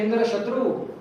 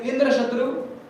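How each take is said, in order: First: The second word carries the stress. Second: The first word carries the stress. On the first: The one named has Indra as an enemy. "Shatru becomes prominent" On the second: The one named is the enemy of Indra. "then it becomes Shashti Tatpurush, Indra's enemy"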